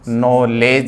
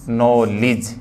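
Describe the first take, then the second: First: The last syllable has an 'eh' vowel. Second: The last syllable has an 'ih' vowel. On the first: The speaker calls it wrong. "ए का नहीं" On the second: The speaker calls it right. "सही जो है वो फोन क्या है, ए का नहीं बल्कि ई का है"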